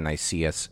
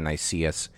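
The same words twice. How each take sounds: First: The name is pronounced as an English reading. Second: The same.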